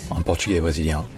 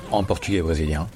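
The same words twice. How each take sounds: The two takes are said the same way.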